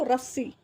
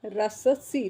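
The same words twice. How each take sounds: First: Said in the usual way. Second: रस सी with a full sa, ra-sa-see; पूरा स. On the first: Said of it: "इस वजह से हम कैसे लिखेंगे इसको". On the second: Shown as a demonstration. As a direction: say रस सी as three syllables, ra-sa-see. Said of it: "अगर मान लो हम पूरा लिखते हैं". (रस सी में पूरा स बोलकर)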